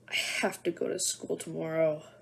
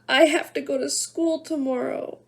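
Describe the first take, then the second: First: It is said in a growling voice. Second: It is said in a crying voice.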